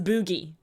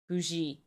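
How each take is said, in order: First: The g is a hard g sound. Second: The g is a soft zh sound. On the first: "I'm reading those words as boogie" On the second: "Just soften the G"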